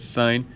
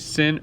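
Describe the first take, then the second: First: The word has a long vowel, like sign. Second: The word has a short vowel, like sin. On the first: The speaker calls it right. "It's sine and cosine" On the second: The speaker calls it wrong. "Please don't say sin or cos. That is not"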